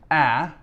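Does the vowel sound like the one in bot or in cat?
cat. The vowel sounds like the one in cat.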